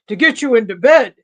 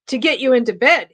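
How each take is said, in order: First: It is read in a slow, insolent drawl. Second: It is read in a plain, ordinary voice. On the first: "he drawled insolently" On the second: "I didn't do the voice"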